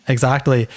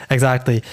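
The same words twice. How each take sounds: The two takes are said the same way.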